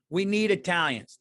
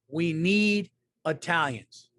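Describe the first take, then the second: First: Said in the usual way. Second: "We need Italians" slowly, NEED drawn out; slow, emphatic title. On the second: Shown as a demonstration. Host repeating the episode's title, slow and emphatic. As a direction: space out "We need Italians", leaning long on "need".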